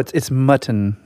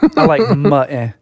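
First: The middle T is clearly pronounced. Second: The middle T is dropped with a catch. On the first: The speaker calls it right. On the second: The speaker calls it wrong. "Like you'll hear people say"

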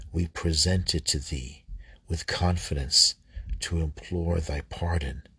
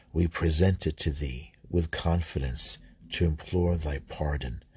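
The two takes are said the same way.

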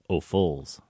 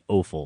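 First: The stress is on the second syllable. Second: The stress is on the first syllable. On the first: This is the French way of saying it. The speaker calls it right. "because it's French, so they would emphasize the second" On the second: This is the American way of saying it. The speaker calls it wrong. "we Americans do the au fools"

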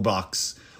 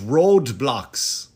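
First: The word is said as 'Roblox', without a d. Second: The word is said as 'Roadblox', with a d. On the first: The speaker calls it right. "Which is not called Roadblox" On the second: The speaker calls it wrong. "I thought it was Roadblox. I'm saying it wrong"

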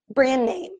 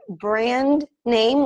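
First: The D is silent and the N's join. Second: The D is pronounced before 'name'. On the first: "make the D silent and you can connect the two N's" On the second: "instead of saying brand name"

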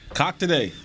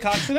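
First: The name ends in a plain k sound. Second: The name ends in a ks sound. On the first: The speaker calls it wrong. "You didn't put an X on it" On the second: The speaker calls it right. "It's with an X"

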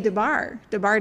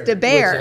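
First: The second syllable sounds like 'bar'. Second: The second syllable sounds like 'bear'. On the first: The speaker calls it wrong. "I say DeBar Design, and it's not" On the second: The speaker calls it right. "It's DeBair"

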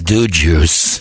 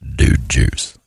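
First: It is said in a Scottish accent. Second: It is said in a deep, slow American drawl. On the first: The speaker calls it wrong. "It doesn't work for the Scots. ... Aye, aye" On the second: The speaker calls it right. "It's only good when it's Sam Elliott"

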